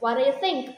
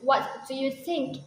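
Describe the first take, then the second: First: It is said fast with the words reduced. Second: It is said slowly with every word full.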